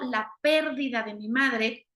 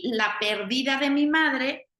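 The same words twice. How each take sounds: First: The stress is on the first syllable of perdida. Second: The stress is on the second syllable of perdida. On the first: The mother has died. "estoy a lo mejor haciendo alusión a que mi mamá murió" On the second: The mother is called a lost woman. "estoy diciendo que mi mamá es una perdida"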